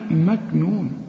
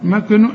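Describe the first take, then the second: First: The k sound is plain without bounce. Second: The k sound has an echoing bounce. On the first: The speaker calls it right. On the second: The speaker calls it wrong.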